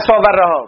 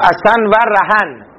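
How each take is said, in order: First: Each word ends on a bare vowel. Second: Each word ends with an added n sound. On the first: The speaker calls it wrong. "نگید مثل اسا و رها، مگه فارسی داری میخونی؟" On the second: The speaker calls it right. "مثل و اسن و رهن"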